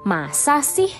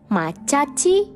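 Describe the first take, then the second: First: The consonants are plain s sounds. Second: The consonants are ch sounds. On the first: An ordinary expression of disbelief. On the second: A cute, playful expression of disbelief.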